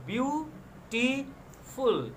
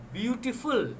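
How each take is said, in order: First: "beautiful" broken slowly into three separate syllables. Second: Said in the usual way. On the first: Shown as a demonstration. Teacher counting syllables for students, "beautiful" split syllable by syllable. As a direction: say "beautiful" in three drawn-out beats with gaps. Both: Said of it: "beautiful has three syllables".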